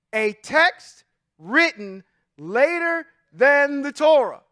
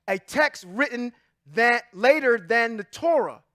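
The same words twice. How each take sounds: First: "A text written later than the Torah" word by word, very slow; slow emphatic reread. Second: Said in the usual way. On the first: Shown as a demonstration. Preacher repeats "A text written later than the Torah" to the congregation, slow and emphatic. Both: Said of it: "Let me read that slower again".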